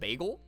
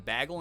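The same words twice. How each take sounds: First: It is said with a general accent. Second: It is said with a Michigan accent. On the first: "instead of" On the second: "how my Michigan native teacher would say"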